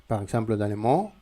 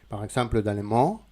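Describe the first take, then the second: Both takes have the same delivery.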